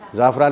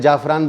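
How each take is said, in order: First: The word begins with a z sound. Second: The word begins with a j sound. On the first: The speaker calls it right. "उन्होंने बोला" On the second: The speaker calls it wrong. "मैं समझा क्यों नुक्ता लगाऊं यार"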